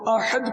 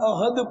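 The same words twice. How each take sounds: First: The h is a strong throaty h sound. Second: The h is a plain, soft h sound. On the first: The speaker calls it right. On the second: The speaker calls it wrong.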